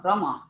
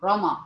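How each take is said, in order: No difference in how they are said.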